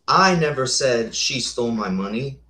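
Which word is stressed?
I. The stress is on the word I.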